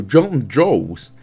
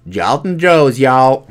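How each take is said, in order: First: Said in the usual way. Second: Mock American twang; American accent. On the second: Gamer trying out an American accent on a place name, mock American accent. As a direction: put on a playful American accent. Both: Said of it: "did I do a good American accent".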